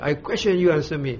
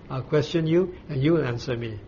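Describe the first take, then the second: First: It is said harshly, like a shout. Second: It is said gently, with love and concern.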